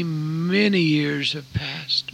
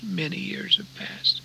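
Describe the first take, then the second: First: Very slow, weighty storytelling; slow, drawn-out emphasis. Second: Softer, near-whispered repeat; hushed echo. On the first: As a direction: stretch out the long passage of years. Same phrase stretched, then echoed softly. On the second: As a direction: let it fade like an afterthought. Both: Real, not acted.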